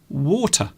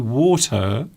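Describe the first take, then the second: First: The end of the word is cut off. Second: The end of the word is fully pronounced.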